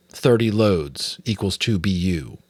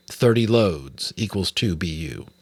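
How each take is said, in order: Both takes have the same delivery.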